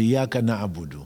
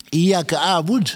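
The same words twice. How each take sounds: First: Said in the usual way. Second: "a'bud" set apart, pitched high; contrasted wrong form. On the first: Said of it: "c'est Iyyaka na'budu". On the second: Shown as a demonstration. Preacher showing listeners what is not said, high contrastive stress on "a'bud". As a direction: raise "Iyyaka a'bud" as the rejected version. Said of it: "au lieu de dire".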